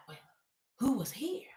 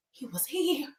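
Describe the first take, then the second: First: Hushed question. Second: Softly acted haunted statement; shaken hush. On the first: Retold or imitated. Bill questioning shaken Liam. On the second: Host as shaken Liam telling Bill, mock hushed fear. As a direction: say it small and hushed. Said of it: "Liam was really shaken".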